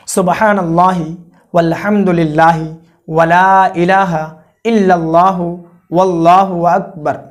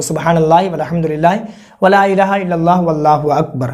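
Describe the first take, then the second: First: Slow, word by word, each phrase set apart; slow careful recitation. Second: Fast, words run together, as in actual prayer; quick run-through. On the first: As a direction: spell the kalma out slowly so they can follow. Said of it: "कितना तक पढ़ना है वो मैं आपको बता रहा हूँ, आप सुनिए". (धीमे-धीमे, एक-एक शब्द अलग करके पढ़ना) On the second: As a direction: rattle the kalma off at the pace you'd count it. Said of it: "फिर से दस मरतबा पढ़ना है उसी कलमे को". (तेज़ी से, बिना रुके कलमा पढ़ना) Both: Shown as a demonstration.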